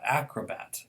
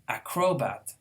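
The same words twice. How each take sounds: First: The stress is on the first syllable. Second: The stress is on the middle syllable. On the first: The speaker calls it right. "Acrobat is how it is" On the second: The speaker calls it wrong. "stressing the second to the last"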